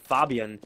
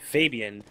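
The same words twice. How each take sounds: First: The name is said with a European pronunciation. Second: The name is said with a North American pronunciation. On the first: This is how Europeans would say it. "If you were in Europe, they would say Fabian, as that's probably the more appropriate pronunciation" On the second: This is how North Americans would say it. "based on the North American diction, it would be Fabian"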